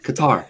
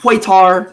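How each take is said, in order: First: It sounds like guitar with a K. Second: It does not sound like guitar with K. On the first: The speaker calls it right. "it's literally guitar, like like the instrument, just with a K" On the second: The speaker calls it wrong. "It's not Qatar"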